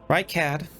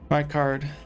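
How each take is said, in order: First: The name ends with a short 'cad' sound. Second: The name ends with a long 'card' sound. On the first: The speaker calls it wrong. "Right cad feels a bit weird, like phonetically is odd" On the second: The speaker calls it right. "I always say right card"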